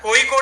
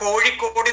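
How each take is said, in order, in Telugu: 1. మధ్య హల్లు సాధారణ 'y' ధ్వని. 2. మధ్య హల్లు స్పష్టమైన 'zh' ధ్వని. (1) "कोळिकोड् जनाः कोयिकोड् इति कथयति" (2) "कोळिकोड् इति स्पष्टतया कथयन्ति"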